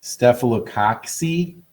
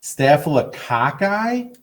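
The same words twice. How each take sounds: First: Staphylococci ending in "see", said slowly; tentative, slow Staphylococci with a "k-see" ending; alternative pronunciation. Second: Staphylococci ending in "kai", drawn out and rising; incredulous Staphylococci with a long "eye" ending; questioned pronunciation. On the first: Shown as a demonstration. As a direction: try Staphylococci as "staff-uh-lo-KOK-see". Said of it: "don't know how to pronounce it". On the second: Retold or imitated. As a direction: slowly echo Staphylococci as "staff-uh-lo-KAH-kai", in disbelief. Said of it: "Is that how it's pronounced?".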